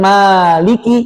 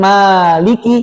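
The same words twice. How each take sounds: First: The vowel after the m is long. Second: The vowel after the m is long.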